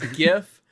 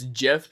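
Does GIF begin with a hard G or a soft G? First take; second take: hard G; soft G. First: The word begins with a hard g sound. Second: The word begins with a soft j sound. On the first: The speaker calls it right. "It's a hard J for the word that it's abbreviated" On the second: The speaker calls it wrong. "but it's a soft J sound"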